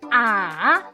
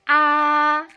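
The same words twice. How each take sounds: First: The pitch dips down first, then rises. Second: The pitch stays level and flat throughout. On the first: "Nada ketiga turun dulu kemudian naik" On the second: "Nada pertama itu bacanya lurus"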